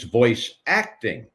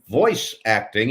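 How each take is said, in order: First: The stress is on the word acting. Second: The stress is on the word voice.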